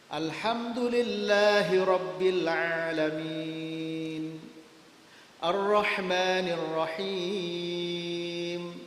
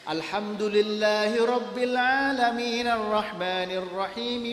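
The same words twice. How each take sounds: First: Each verse is followed by a pause. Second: The verses run together in one breath.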